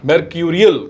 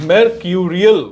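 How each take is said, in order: First: "mercurial" repeated as mer-KYOO-ree-ul with a falling close; pronunciation demo. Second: "mercurial" said carefully as mer-KYOO-ree-ul, rising at the end; pronunciation demo. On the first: Teacher repeats mercurial so students can copy it. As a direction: give "mercurial" again, settling down on the last syllable. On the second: Teacher demonstrates the pronunciation of mercurial for students. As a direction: say "mercurial" clearly for the class, first take. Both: Shown as a demonstration. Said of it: "इसकी pronunciation क्या है?".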